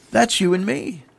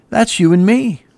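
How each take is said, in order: First: Softer, higher echo of the line; hushed repeat. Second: Raised pitch at normal volume; pointed emphasis. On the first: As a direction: let "That's you and me" drop softly. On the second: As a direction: press "That's you and me" on the listeners. Applies it to listeners, then repeats. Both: Real, not acted.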